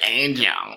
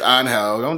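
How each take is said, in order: First: It starts with an ay vowel and a soft j. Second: It starts with an open vowel and a throaty h. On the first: The speaker calls it wrong. "Don't be that Anglo-Saxon who's like, it's spelled Angel. I'm pronouncing it Angel" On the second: The speaker calls it right. "No, it's on hell"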